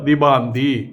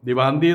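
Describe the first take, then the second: First: The middle consonant is a 'b' sound. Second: The middle consonant is a 'v' sound. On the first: The speaker calls it wrong. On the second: The speaker calls it right.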